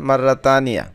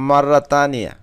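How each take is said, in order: No difference in how they are said.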